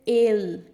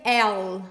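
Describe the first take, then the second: First: El said slowly with a closed e. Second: El said with an open e, like Portuguese é; el with a wide open vowel, the wrong way. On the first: Teacher showing students the right el, closed vowel. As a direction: stretch el out with a tight, closed e. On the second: Teacher showing students the wrong el, open vowel. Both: Shown as a demonstration. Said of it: "a letra E um pouco mais fechada".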